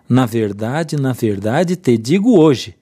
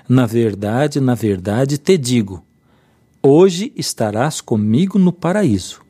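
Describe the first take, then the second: First: There is a pause after the word hoje. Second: There is a pause before the word hoje.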